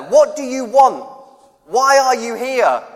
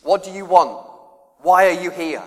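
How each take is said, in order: First: Higher, louder, slow bellowed demand; yelled question. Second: Said in the usual way. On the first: Retold or imitated. Big bloke in flame light shouts at newcomers, slow and loud. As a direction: bark it like a big bloke at a night camp. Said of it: "'cause someone's yelling at you". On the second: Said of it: "what's the first question you get asked".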